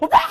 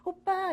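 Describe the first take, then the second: First: Raw, loud shriek; hammed-up fangirl screech; uncontrolled fan scream. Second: High, softer, cute call; put-on pretty schoolgirl voice; pretty fangirl voice. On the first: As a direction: lose all composure and scream. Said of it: "이렇게 가는 거죠". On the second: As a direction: call out sweetly, on best behaviour. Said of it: "이래야 되는데".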